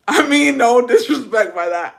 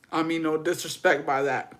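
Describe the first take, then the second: First: Said louder and higher in a strange put-on voice; a loud, oddly voiced apology that comes out wrong; odd loud take. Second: Said in the usual way. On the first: Shown as a demonstration. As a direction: blurt the apology out loud and weird. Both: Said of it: "I don't know why I said that like that".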